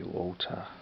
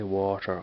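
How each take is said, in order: First: It is said in a London accent. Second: It is said in a Dublin accent.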